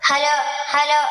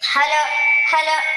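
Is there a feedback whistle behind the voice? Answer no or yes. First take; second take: no; yes. First: The voice sounds clean with no feedback whistle. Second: A loud feedback whistle sounds behind the voice. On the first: The speaker calls it right. "ഇപ്പോൾ വിസിലടി ഇല്ല" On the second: The speaker calls it wrong. "പൊത്തി പിടിച്ചു പറയുമ്പോൾ ... ഇപ്പോൾ വിസിലടിക്കുന്നുണ്ട്"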